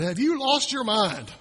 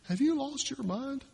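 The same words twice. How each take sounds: First: Slow, deliberate disbelieving question; slow exasperated scold; exasperated parent. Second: Higher, softer, rising in disbelief; higher, hushed incredulous question; incredulous parent. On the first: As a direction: drag it out like a fed-up parent. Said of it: "he might have looked at them and said". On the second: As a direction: ask it as if you can't believe your ears. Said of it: "Like we do with our kids sometimes". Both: Retold or imitated.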